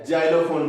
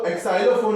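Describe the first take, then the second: First: The word begins with a z sound. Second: The word begins with an eks sound. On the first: The speaker calls it right. "जाइलोफोन बोलेंगे" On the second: The speaker calls it wrong. "इसको एक्साइलोफोन नहीं बोलेंगे"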